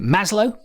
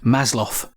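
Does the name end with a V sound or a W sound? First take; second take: W; V. First: The name ends with a W sound. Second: The name ends with a V sound. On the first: "Lots of people call it Maslow" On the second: "will pronounce the W as a V"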